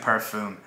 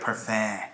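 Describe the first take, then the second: First: The word is said with an American-style pronunciation. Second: The word is said with a French-style pronunciation. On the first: The speaker calls it wrong. "Someone chewed me out for saying it like an American might. I was saying parfum" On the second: The speaker calls it right. "No, you say it like parfum"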